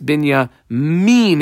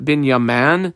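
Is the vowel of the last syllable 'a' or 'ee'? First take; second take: ee; a. First: The last syllable has an 'ee' vowel. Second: The last syllable has an 'a' vowel. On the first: The speaker calls it right. "that's Bin Yamin. It's pronounced that way" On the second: The speaker calls it wrong. "That's not Bin Yaman"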